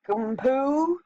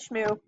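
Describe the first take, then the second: First: It begins with 'sk' and has two syllables. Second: It begins with 'sh' and has one syllable. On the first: The speaker calls it wrong. "That doesn't sound good" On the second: The speaker calls it right. "So I call it Shmoo"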